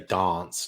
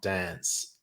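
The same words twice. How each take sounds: First: The word is said in a more English-sounding way. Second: The word is said in a typical Australian way. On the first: This is how Adelaide speakers say it. "a typical Adelaide accent sounds a bit more English. Like they definitely say dance" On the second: This is how other Australians say it. "not dance"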